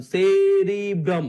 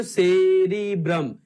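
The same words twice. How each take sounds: First: सेरिब्रम said slowly and loudly, leaning on the syllable ब्र; syllable-stressed pronunciation. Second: सेरिब्रम slow and loud, every syllable spaced; syllable-stressed pronunciation. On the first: Teacher to his class: सेरिब्रम drawn out slow and loud. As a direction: stretch out सेरिब्रम so the students hear बड़ा inside it. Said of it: "बड़ा शब्द". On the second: Teacher drilling the class: सेरिब्रम said slow and loud. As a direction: drag out सेरिब्रम to show the hidden word. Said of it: "क्या बोले बच्चों?". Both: Shown as a demonstration.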